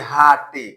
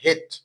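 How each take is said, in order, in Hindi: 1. इसमें दो अक्षर हैं, अंत में e बोला जाता है। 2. इसमें एक अक्षर है, e मौन है। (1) "रूल नहीं जानने के चलते ये सब मिस्टेक करता है।" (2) "ई का उच्चारण नहीं होता है"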